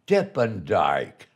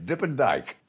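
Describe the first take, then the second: First: Nickname drawn out. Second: Said in the usual way. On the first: Retold or imitated. Recalling his comic nickname, slow and drawn out. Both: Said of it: "that's been my name ever since".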